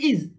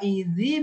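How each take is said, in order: First: The word ends on a bare consonant. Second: The word ends with an added i vowel. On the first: This is the original form of the word. "Itu asalnya id, sukun" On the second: The word is joined to the following word. "dirubah jadi kasro karena sukun ketemu sama sukun"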